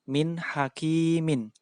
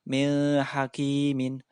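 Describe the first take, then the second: First: The n sound is pronounced clearly and distinctly. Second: The n sound is blurred into the next sound. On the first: The speaker calls it right. "harus dibaca jelas" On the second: The speaker calls it wrong. "Tidak boleh dibaca"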